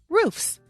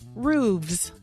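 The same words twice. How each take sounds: First: The word ends with an f sound. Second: The word ends with a v sound. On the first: "roofs is a more common pronunciation" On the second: "we were told to say roofs with a hard V"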